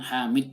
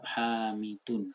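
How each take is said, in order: First: The name ends on a bare d consonant. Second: The name ends with the full un ending. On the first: The speaker calls it wrong. "jangan disukunkan huruf terakhir... jangan Hamid dibaca" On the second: The speaker calls it right. "bacalah lengkap-lengkap Hamidun"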